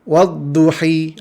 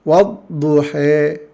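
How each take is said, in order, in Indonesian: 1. Vokal akhirnya adalah bunyi i yang penuh. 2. Vokal akhirnya condong kuat ke bunyi e. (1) "Bacaan kasrahnya wadduhi, ha, itu tidak ada dalam Al-Quran" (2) "Bacaan imalah"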